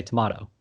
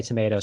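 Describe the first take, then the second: First: "tomato" said tuh-MAH-toh; "tomato" with the vowel of "father". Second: "tomato" said tuh-MAY-toh; "tomato" rhyming with potato. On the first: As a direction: give "tomato" a broad "ah" in the middle. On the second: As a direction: give "tomato" a long A in the middle. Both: Shown as a demonstration. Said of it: "some people say tomato".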